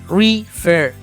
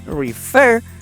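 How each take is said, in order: First: The stress is on the first syllable. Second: The stress is on the second syllable. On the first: The speaker calls it wrong. "a diferencia de refer, refer. Eso está mal" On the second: The speaker calls it right. "Se nota que la tónica está en la segunda"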